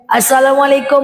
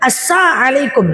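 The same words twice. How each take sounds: First: The greeting is said with its 'l' sound. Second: The greeting is said without its 'l' sound. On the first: A proper greeting of peace. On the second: A curse wishing harm on the listener.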